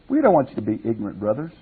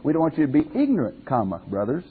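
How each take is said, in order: First: It runs straight on with no pause before 'brothers'. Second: It has a clear break before 'brothers'.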